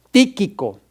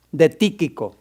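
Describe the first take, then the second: First: "Tíquico" said TÍ-qui-co, leaning on the first syllable; teacher spelling out "Tíquico", accent on TÍ; stress on the I. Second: Said in the usual way. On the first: Shown as a demonstration. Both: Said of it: "con acento en la I".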